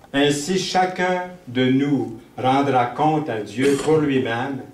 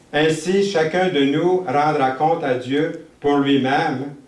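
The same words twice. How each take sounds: No difference in how they are said.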